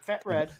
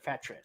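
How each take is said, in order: First: The name is said as two separate words. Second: The name is run together as one word. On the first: The speaker calls it wrong. "not Fat Red" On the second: The speaker calls it right. "It's all one word"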